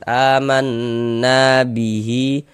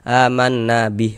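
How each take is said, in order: First: The final vowel of bihi is lengthened. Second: The final vowel of bihi is kept short. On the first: The reading continues into the next words. "hi kita baca panjang" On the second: The reader stops at this word. "nggak berlaku"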